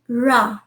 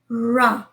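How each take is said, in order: First: The r sound is soft and gentle. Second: The r sound is soft and gentle.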